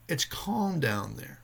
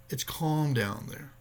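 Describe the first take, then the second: First: Slow, soothing words; slow calm reassurance. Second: Slow calm repeat. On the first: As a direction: ease a panicked diver, slowly. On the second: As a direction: say it again gently to calm. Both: Retold or imitated. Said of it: "He said".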